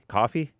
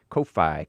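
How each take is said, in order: First: It is said like the ordinary word coffee. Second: It is said as two separate parts, Ko-Fi. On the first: "It's actually pronounced Kofi, coffee" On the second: "I pronounce it fancy with a hyphen"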